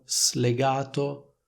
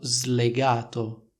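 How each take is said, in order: First: The s is voiceless, separate from the l. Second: The s is voiced, like a z sound. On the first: The speaker calls it wrong. "e dicono slegato" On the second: The speaker calls it right. "è stato slegato"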